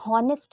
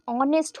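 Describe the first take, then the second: First: The word begins with an audible h sound. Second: The word begins with a vowel, no h sound. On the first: The speaker calls it wrong. "हॉनेस्ट नहीं होता है" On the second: The speaker calls it right. "एच is silent, ये ऑनेस्ट होता है"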